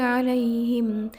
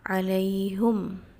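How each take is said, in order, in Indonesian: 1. Vokal setelah h adalah 'i'. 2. Vokal setelah h adalah 'u'.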